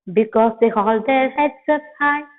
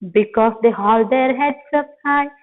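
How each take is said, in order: The two takes are said the same way.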